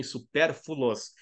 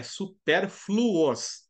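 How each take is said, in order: First: "supérfluos" slowly said as su-PÉR-fu-los; common mispronunciation. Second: "supérfluos" drawn out as su-PÉR-flu-os; correct F-L pronunciation. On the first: Teacher showing how many people say it, "supérfluos" mispronounced as "supérfulos". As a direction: misplace the L in "supérfluos", giving "supérfulos". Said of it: "fala assim também". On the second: Teacher correcting the class, "supérfluos" pronounced slowly with FL together. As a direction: say "supérfluos" very slowly with a clear FL cluster. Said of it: "Com F L". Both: Shown as a demonstration.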